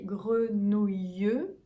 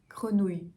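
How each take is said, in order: First: The final syllable is drawn out and heavily sounded. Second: The final syllable is light and softened. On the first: The speaker calls it wrong. "c'est vraiment exagéré" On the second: The speaker calls it right. "on va un peu adoucir la dernière"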